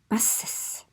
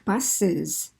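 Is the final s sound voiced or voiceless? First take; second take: voiceless; voiced. First: The final s sound is a voiceless hiss. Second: The final s sound is a voiced buzz. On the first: The speaker calls it wrong. "We don't say buses" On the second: The speaker calls it right. "take that S sound and make it voiced and we add a syllable"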